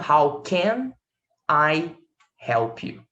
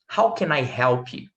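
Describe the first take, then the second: First: Can and I are said apart. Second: The n of can runs into I. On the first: The speaker calls it wrong. "E não" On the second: The speaker calls it right. "o N com I vira nai"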